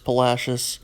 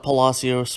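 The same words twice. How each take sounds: First: The name is said in the local pronunciation. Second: The name is said in a non-local pronunciation. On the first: The speaker calls it right. "that is how we pronounce it" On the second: The speaker calls it wrong. "not Palacios"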